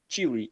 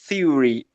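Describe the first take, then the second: First: The first sound is a plain hard t. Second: The first sound is a soft dental th. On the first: "esse T H, ele tem o mesmo som de T" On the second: "aquele som com a língua entre os dentes"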